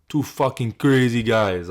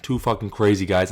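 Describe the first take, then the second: First: Slow, lightly put-on Czech accent on "Two fucking crazy guys"; imitating Yuri. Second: Said in the usual way. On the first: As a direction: drag out "crazy" like Yuri in broken English. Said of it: "he did this post-fight speech". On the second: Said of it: "He had this one at the end".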